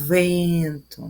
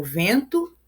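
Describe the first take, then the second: First: "vento" with a long buzzing initial v; imitating the wind. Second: Said in the usual way. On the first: Shown as a demonstration. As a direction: stretch the v of "vento" like blowing wind. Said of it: "Para imitar o som do". ("vvvento", imitando o som do vento) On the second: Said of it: "a literação do fonema V".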